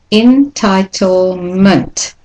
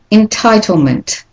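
First: "entitlement" very slow, en-ti-tle-ment; slow-motion model of "entitlement"; syllable-by-syllable demonstration. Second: "Entitlement" joined up, higher, with a reduced final ment; connected model of "Entitlement", weak ending; weak schwa ending. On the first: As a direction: stretch each syllable of "entitlement" apart. Teacher breaks word into syllables. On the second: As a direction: say "Entitlement" whole, de-stressing the last syllable. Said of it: "the common ending has the schwa". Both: Shown as a demonstration.

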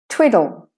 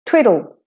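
Both takes have the same delivery.

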